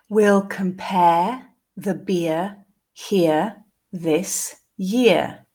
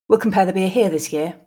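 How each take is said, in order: First: The sentence is said slowly. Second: The sentence is said at a natural pace. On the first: "the first time slowly" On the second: "and then twice more at a more natural pace"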